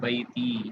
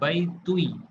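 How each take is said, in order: First: The word ends with a plain 'ti' sound. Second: The word ends with a 'tui' sound. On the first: The speaker calls it right. "कसरा दे के पढ़ते हैं।" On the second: The speaker calls it wrong. "ये साउंड काबिल बर्दाश्त अरबी में नहीं है।"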